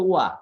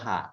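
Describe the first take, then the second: First: The word begins with a w sound. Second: The word begins with an h sound. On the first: It is used as a particle in a sentence. "Particle হিসাবে ইউজ হবে ... তখন উচ্চারণ হয়ে যাবে ওয়া" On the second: It is read as a letter on its own. "আমরা যখন অক্ষর হিসাবে পড়বো তখন এটা হা"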